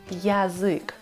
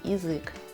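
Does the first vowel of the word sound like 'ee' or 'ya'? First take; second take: ya; ee. First: The first vowel sounds like 'ya'. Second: The first vowel sounds like 'ee'. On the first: The speaker calls it wrong. "Мы не станем говорить" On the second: The speaker calls it right. "Мы слышим звук И"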